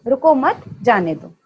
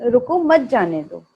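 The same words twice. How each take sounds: First: "रुको मत जाने दो" with the break after रुको, meaning stop, don't let go; pause after रुको. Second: "रुको मत जाने दो" with the break after मत, meaning don't stop, let go; pause after मत. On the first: Teacher shows the students the misheard reading, break after रुको. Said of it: "और आप समझें". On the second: Teacher shows the students the first reading, break after मत. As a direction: say "रुको मत" together, then a pause before "जाने दो". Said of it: "मैंने आपसे कहा है". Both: Shown as a demonstration.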